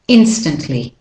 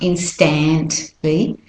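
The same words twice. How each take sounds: First: The middle vowel is reduced to a schwa. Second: The middle vowel is a full, clear vowel. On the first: The speaker calls it right. "the A becomes the weak form or the de-stressed vowel and becomes the schwa" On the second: The speaker calls it wrong. "not instantly"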